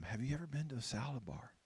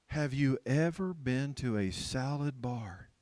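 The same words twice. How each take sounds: First: Said in the usual way. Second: "ever" leaned on, the whole question slow; slow, emphatic asking, stretching "ever"; deliberate repeated question. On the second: Acted. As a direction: spell out "salad bar" slowly and pointedly.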